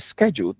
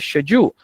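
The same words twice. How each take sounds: First: The word is pronounced the American way. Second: The word is pronounced the British way. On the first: The speaker calls it wrong. "Britons do not say schedule" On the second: The speaker calls it right. "they say schedule"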